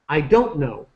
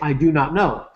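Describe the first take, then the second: First: Do and not merge into one reduced word. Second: Every word is said fully and separately. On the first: "We start to reduce it" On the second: "Americans don't say, I do not know"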